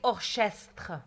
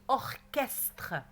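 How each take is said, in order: First: The 'ch' is said as a 'sh' sound. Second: The 'ch' is said as a 'k' sound. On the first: The speaker calls it wrong. "est-ce qu'on dit orchestre? Non, non, non" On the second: The speaker calls it right. "on dit orchestre"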